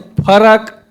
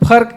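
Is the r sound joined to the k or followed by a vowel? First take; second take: vowel between; joined. First: A vowel is inserted between r and k. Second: The r joins the k with no vowel. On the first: This is the Surgujia form. "वो पूरा पूरा रा" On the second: This is the standard form. "आधा रा"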